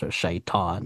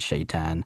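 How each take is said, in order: First: The last syllable has an open ah sound. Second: The last syllable has a flat a, like tan. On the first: It is how native speakers say the word. The speaker calls it right. "the T we make it like a ah sound" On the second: It is the transliterated English pronunciation. The speaker calls it wrong. "they saw T A N and they said tan"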